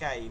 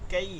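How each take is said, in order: First: The syllable is said softly and quickly. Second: The syllable is said hard, not softly. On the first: The speaker calls it right. "একদম নরম করে" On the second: The speaker calls it wrong. "এরকম বলা যাবে না।"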